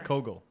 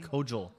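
First: The G is pronounced as a hard G. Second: The G is pronounced as a soft G. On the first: The speaker calls it right. "I say Kogel" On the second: The speaker calls it wrong. "You said Kogel. And I've literally said to you at least 500 times that it's a hard G"

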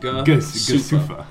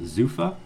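First: The word begins with a G sound. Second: The word begins with a Z sound. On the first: The speaker calls it wrong. "it looks like" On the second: The speaker calls it right. "I understand it's pronounced Zufa"

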